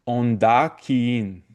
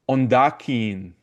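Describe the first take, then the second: First: It is said very slowly. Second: It is said at normal speed.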